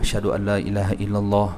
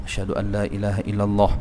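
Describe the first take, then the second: The two takes are said the same way.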